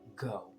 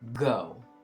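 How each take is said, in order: First: The word is said softly. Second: The word is said loudly.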